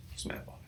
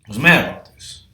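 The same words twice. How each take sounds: First: Breathy whisper repeat; whispered aside. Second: Said in the usual way. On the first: Real, not acted. Repeating to the crowd that he was mad, whispered. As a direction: mutter it again under your breath.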